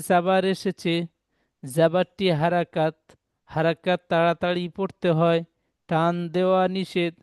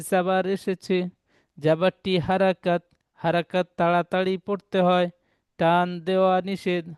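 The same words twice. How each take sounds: The two takes are said the same way.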